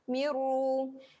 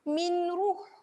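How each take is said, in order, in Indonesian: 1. Bunyi n menyatu sepenuhnya menjadi r yang dobel. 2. Bunyi n diucapkan sebelum r. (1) "terus masukkan pada miru" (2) "dia tidak lagi bunyi minruh. Ah, tu salah"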